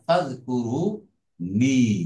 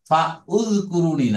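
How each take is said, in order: First: The 'u' vowel is dropped, linking 'fa' directly. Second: A separate 'u' vowel is heard after 'fa'. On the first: The speaker calls it right. "যেহেতু হামজাতুল অসলি, it will not be pronounced" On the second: The speaker calls it wrong. "ফা উজকুরুনি না"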